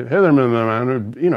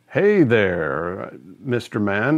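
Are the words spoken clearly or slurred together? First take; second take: slurred; clearly. First: The words are slurred and run together. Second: Each word is articulated clearly and separately. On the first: The speaker calls it wrong. "it'd be all this, slurred stuff" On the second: The speaker calls it right. "instead of saying"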